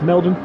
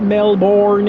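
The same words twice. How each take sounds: First: The vowels are almost dropped, like M-L-B-N. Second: The vowels are pronounced clearly and fully. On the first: The speaker calls it right. "M L B N, Melbourne" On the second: The speaker calls it wrong. "It's not Melbourne"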